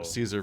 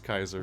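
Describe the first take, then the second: First: The name begins with an S sound. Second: The name begins with a K sound. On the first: "Caesar versus Kaiser" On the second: "Caesar versus Kaiser"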